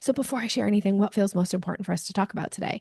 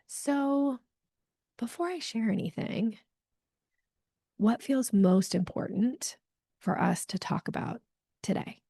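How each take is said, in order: First: It is said fast and rushed. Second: It is said slowly and thoughtfully.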